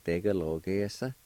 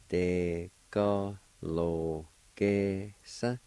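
First: Said in the usual way. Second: Very slow, stretched syllables. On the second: Shown as a demonstration. Teacher sounding out the word for fields, slowly syllable by syllable. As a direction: draw the word out piece by piece. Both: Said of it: "it's pronounced like this".

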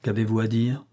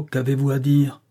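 First: Restrained, coolly contemptuous question; cold disdain. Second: Firmer, mildly impatient question; insistent repeat. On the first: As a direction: ask it with understated, icy scorn. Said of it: "froid dédain". (question posée avec un froid dédain) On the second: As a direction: press for a clear answer. Question repeated after unintelligible answer. (question répétée avec insistance) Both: A narrator's reading.

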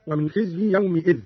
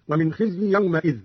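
First: Said in the usual way. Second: "يومئذ" as yawma'idh; fatha on the meem. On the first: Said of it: "قرأ قالون بفتح الميم". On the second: Shown as a demonstration. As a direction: say an a after the m in "يومئذ". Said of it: "بفتح الميم من يومئذ هكذا". ("يومئذ" بفتح الميم)

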